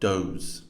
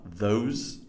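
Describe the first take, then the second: First: It begins with a hard 'd' sound. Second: It begins with a soft 'th' sound. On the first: The speaker calls it wrong. "incorrectly pronounced in this text as" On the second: The speaker calls it right. "these are your the and th sounds"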